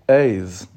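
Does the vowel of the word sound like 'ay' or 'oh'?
ay. The vowel sounds like 'ay'. This is the Lubavitch way of saying it. The speaker calls it right. "Lubavitch terminology"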